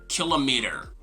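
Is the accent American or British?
American. It is said in an American accent. "in American English, we say kilometer"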